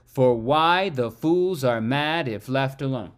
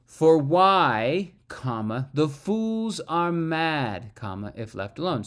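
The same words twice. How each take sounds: First: "For why the fools are mad if left alone" in one even run, lightly stressed; smooth iambic line. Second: "For why," then a break, "the fools are mad" slow, each comma spoken aloud; pausing at commas. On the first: Teacher reads the line ignoring commas, pure meter. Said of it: "So I find the meter". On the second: Teacher scans the line with its punctuation. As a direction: mark every comma with a stop. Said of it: "honor these commas". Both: Shown as a demonstration.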